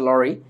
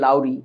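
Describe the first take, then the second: First: The first vowel is a plain 'aw' sound. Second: The first vowel glides like 'ow' in 'cow'. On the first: This is the actual pronunciation of the name. The speaker calls it right. "Actually উচ্চারণটা হচ্ছে লরি" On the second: This is how local speakers usually say it. The speaker calls it wrong. "আমরা বাঙালিরা বলি লাউরি"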